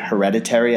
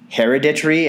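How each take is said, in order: First: It has the standard American pronunciation. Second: It has an unusual, non-American pronunciation. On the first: "the word hereditary" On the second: "my mom used to pronounce the word hereditary as hereditary"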